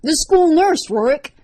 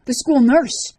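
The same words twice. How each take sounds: First: Much higher and louder shriek, peaking on nurse. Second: Loud, high scream of accusation. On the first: Liz accusing Rorik, shrieking his name. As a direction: push the scream to breaking point. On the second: Liz to Rorik in the locker room, screaming. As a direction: scream it at him, listing the horrors. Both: A narrator's reading. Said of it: "she screamed".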